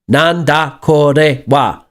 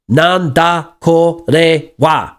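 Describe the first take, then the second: First: All syllables are even, like a machine gun. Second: All syllables are even, like a machine gun.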